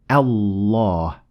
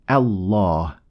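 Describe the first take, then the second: The two takes are said the same way.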